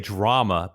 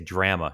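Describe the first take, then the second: First: It is said in a non-Canadian way. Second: It is said in a Canadian way. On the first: "I say drama" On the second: "the Canadians say drama"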